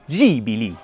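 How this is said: It is said with an Italian accent. "À l'italienne"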